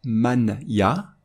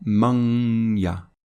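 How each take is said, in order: First: "man ya" as two separate words with a clear n; "man ya" without any nasal glide; unassimilated pronunciation. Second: "man ya" with the n melted into a long nasal glide into y; slow "man ya", nasal sound held between the words; nasal assimilation. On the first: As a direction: keep the n of "man" crisp, then "ya" apart. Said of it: "on ne va pas prononcer". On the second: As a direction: hum through the nose from "man" into "ya", slowly. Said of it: "on va prononcer". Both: Shown as a demonstration.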